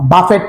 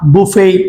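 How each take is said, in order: First: The word ends with a t sound. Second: The word ends without a t sound. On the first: The speaker calls it wrong. "বাফেট না" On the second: The speaker calls it right. "Common যে শব্দগুলো"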